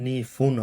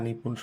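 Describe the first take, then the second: First: The middle consonant is an f sound. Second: The middle consonant is a p sound. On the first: The speaker calls it right. "এটা নিফুন হবে" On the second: The speaker calls it wrong. "নিপুণ শুনতে কেমন যেন লাগতেছে"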